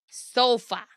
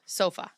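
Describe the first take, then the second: First: "Sofa" pitched higher, with a falling end; exaggerated sofa. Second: Said in the usual way. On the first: Shown as a demonstration. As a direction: overplay the word "Sofa", high then falling. Trying out the word sofa.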